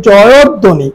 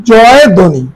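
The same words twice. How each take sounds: First: জয়ধ্বনি as "joyod-dhoni", doubled dh; joined correct pronunciation. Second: জয় ধ্বনি as two words, "joy dhoni"; as-written pronunciation. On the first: Teacher corrects the reading, saying জয়ধ্বনি as "joyod-dhoni". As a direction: link জয়ধ্বনি with an o and a held d. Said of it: "আমরা উচ্চারণ করি". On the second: Teacher first reads জয় ধ্বনি as spelt, "joy dhoni". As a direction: say জয় ধ্বনি with no linking vowel. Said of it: "এটা আসলে আমরা উচ্চারণ করি". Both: Shown as a demonstration.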